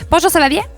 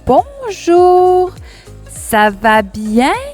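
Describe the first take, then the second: First: The phrase is spoken quickly. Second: The phrase is spoken slowly. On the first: "d'une façon rapide" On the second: "d'un débit, d'un rythme lent"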